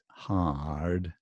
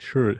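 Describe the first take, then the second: First: The vowel is an open 'ah' sound. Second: The vowel is an 'er' sound, not 'ah'. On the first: The speaker calls it right. "there's definitely an ah sound in there" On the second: The speaker calls it wrong. "many Japanese students do that"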